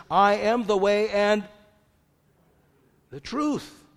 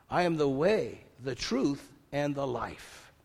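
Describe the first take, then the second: First: "I am the way and the truth" loud and higher, "truth" rising; ringing declaration with "truth" lifted high; proclaiming. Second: Said in the usual way. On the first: Shown as a demonstration. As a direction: proclaim "I" and "truth" with full force.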